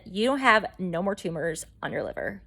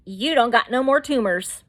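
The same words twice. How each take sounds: First: Measured, matter-of-fact doctor delivering results; more professional. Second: Punchy, slangy mock-doctor announcement; unprofessional paraphrase. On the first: Retold or imitated. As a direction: restate it soberly, as a doctor would. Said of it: "He's more professional than that". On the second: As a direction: blurt it out like casual good news. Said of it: "he didn't say it that way".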